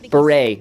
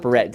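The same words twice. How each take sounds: First: The final T is not pronounced. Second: The final T is clearly pronounced. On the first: The speaker calls it right. "Silent silent T" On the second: The speaker calls it wrong.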